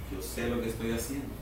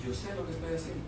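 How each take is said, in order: First: Soft, unhurried divine reassurance, quicker; God calmly soothing his anxious child. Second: Soft, unhurried divine reassurance; calm God. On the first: Dios tranquilo en su trono, respondiendo con calma. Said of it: "tranquilo, sentado en su trono". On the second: God on his throne reassures believers, soft and calm. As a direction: speak like a king at rest. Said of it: "Tranquilo en su trono". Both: Acted.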